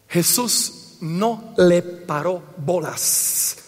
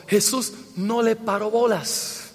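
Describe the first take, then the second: First: Very slow and low, word by word; slow, deliberate delivery. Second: Un poquito jocoso. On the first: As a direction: spell out "no le paró bolas" with weighty gaps. Slow announced punchline, then repeated. (muy lento, palabra por palabra) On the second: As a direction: toss it off as a mild joke. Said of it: "Lo decimos así un poquito jocoso". (tono levemente jocoso) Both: Real, not acted.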